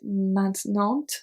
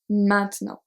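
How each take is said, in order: First: Each written letter is sounded out as spelled. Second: It is said with native French nasal sounds. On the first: The speaker calls it wrong. "Do you get maintenant? It's not" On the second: The speaker calls it right. "We say maintenant"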